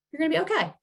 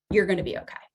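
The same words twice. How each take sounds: First: Higher, soothing "okay"; gentle reassurance. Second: Said in the usual way. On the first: Shown as a demonstration. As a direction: comfort a nervous kid. Reassuring the scared child.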